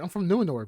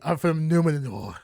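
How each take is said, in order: First: It has a plain, ordinary American accent. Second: It has an exaggerated, fancy accent with rolled R's. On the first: It is how a regular person would say it. The speaker calls it right. "just say it normal" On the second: It mimics how the characters talk. The speaker calls it wrong. "why the fuck is everybody talking like this?"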